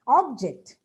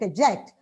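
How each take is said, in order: First: The stress is on the first syllable. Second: The stress is on the second syllable. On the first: It is used as a noun. "Object is a noun" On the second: It is used as a verb. "but object"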